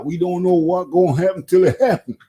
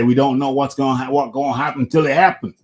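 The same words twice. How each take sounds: First: Higher-pitched put-on imitation of a boxer's accent; Deontay Wilder accent. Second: Said in the usual way. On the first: Boxing host mimics Wilder while debating his next fight, imitated accent. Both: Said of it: "I'm gonna go into my Deontay Wilder accent now".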